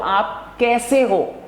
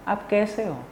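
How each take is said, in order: First: It is said loudly. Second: It is said softly.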